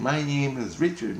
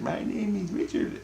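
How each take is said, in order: First: Put-on high, childlike inner voice; innocence voice. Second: Put-on much higher, softer child voice; a tiny faraway child says its name; innocence voice. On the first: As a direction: speak as a small inner child. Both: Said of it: "my innocence is talking".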